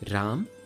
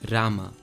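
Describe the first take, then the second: First: The word ends in a consonant. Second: The word ends in an added 'a' vowel. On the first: This is the Hindi form. "Hindi does not" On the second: This is the Sanskrit form. "Sanskrit adds an a sound to the end"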